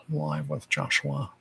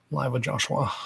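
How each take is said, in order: First: Said again softer and slower; quiet slowed repeat of the title. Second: Said in the usual way. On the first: Shown as a demonstration. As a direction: drop the level and ease the pace on the second read.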